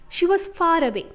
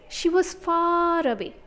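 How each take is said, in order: First: The word far is said at normal length. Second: The vowel in far is drawn out long.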